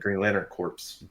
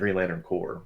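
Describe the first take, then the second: First: The last word sounds like corpse, ending in ps. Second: The last word sounds like core, without ps. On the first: The speaker calls it wrong. "We haven't been saying Green Lantern corpse" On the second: The speaker calls it right. "we've been saying Green Lantern core"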